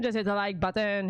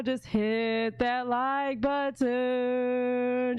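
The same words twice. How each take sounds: First: Said in the usual way. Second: Very slow Jamaican drawl on every word; Jamaican accent. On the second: Retold or imitated. Slow Jamaican accent telling viewers to like. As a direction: Jamaican accent stretched out long. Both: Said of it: "She did the Jamaica version".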